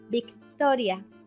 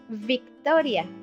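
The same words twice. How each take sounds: First: The word starts with a b-like sound. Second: The word starts with a v sound. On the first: "but we say" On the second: "you will say in English"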